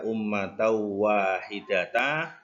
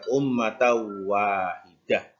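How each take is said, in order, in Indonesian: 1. Kata terakhir berakhir dengan vokal a panjang. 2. Kata terakhir berakhir dengan bunyi h. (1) "Tidak dibaca ummatau wahidata" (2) "karena tidak mat maka dibaca ummatau wahidah"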